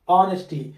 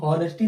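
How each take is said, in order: First: The word begins directly with a vowel. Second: The word begins with an h sound. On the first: The speaker calls it right. "ऑनेस्टी पढ़ेंगे। क्या पढ़ेंगे" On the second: The speaker calls it wrong. "अब इसको हम हॉनेस्टी नहीं पढ़ेंगे, हाँ sound नहीं आ रहा है"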